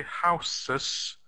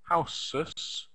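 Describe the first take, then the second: First: Houses said with a hard s, haʊsəs; wrong s sound. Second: The wrong houses with an s sound. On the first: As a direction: say houses with a hissing s in the middle. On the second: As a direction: repeat houses with the s, lower. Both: Shown as a demonstration. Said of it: "but we don't say houses".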